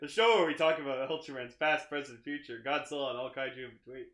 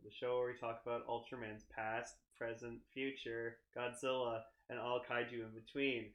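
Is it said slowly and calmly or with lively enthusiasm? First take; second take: enthusiastically; slowly. First: It is said with lively, enthusiastic energy. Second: It is said slowly with little enthusiasm.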